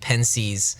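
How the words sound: The word is pronounced the English way.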